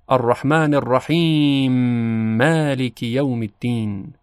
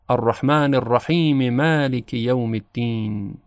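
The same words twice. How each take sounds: First: The two m sounds merge into one doubled m. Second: The verses run together with a vowel after m. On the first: "ادغام ... میم کلمه مالک مشدد تلفظ میشه" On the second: "وصل بکنیم و ... حرکت میم رحیم رو اظهار بکنیم"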